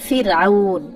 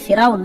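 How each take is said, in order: First: The first vowel sounds like 'i', with a break. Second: The first vowel sounds like 'e', run together. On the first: The speaker calls it right. "মূল কথাটা হচ্ছে ফিরআউন" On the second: The speaker calls it wrong. "যেটাকে আমরা ফেরাউন বলি, ফেরাউন না"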